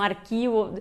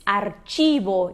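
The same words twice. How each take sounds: First: "arquivo" with a hard K sound; mistaken K sound. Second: "archivo" with CH as in "church"; Spanish CH pronunciation. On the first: Teacher quotes learners' mistaken reading, hard K sound in "arquivo". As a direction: say "arquivo" the Portuguese way, with K. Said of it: "às vezes as pessoas pensam arquivo". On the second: Teacher models the Spanish word for learners, CH as tch. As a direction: say "archivo" slowly with a tch sound. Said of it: "C H em espanhol tem esse som de ch". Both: Shown as a demonstration.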